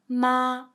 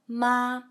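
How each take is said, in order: First: The pitch stays level and high throughout. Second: The same.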